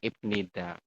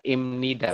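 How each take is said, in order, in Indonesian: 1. Bunyi sebelum 'nida' adalah B. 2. Bunyi sebelum 'nida' adalah M. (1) "bukan ibnida" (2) "nanti bacanya adalah imnida"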